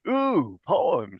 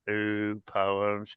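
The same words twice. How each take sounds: First: It sounds excited and eager. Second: It sounds dismayed and reluctant. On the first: Poems are something to look forward to. The speaker calls it right. "I'm hoping that by the time we're done with all this training" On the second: Poems are an unwelcome task. The speaker calls it wrong. "when you saw that David was doing poems"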